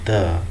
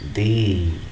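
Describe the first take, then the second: First: The vowel is short and reduced. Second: The vowel is long, like 'thee'. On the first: The next word begins with a consonant sound. "three times we pronounced as the" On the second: It highlights the uniqueness of someone or something. "pronounced as the with a long vowel"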